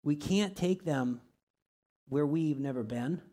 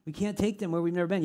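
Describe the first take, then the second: First: Slow, each word weighed out; slow and deliberate. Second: Fast, punching "take"; quick repeat, stress on take. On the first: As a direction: say it slowly so it sinks in. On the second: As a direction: rattle it off fast and hit "take". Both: Shown as a demonstration.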